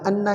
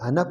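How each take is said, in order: First: The n sound is doubled and held. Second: The n sound is single and light. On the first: The speaker calls it right. "ये हर्फ मुशद्दद है" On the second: The speaker calls it wrong. "हमने इसको मुखफ़्फ़फ़ कर दिया"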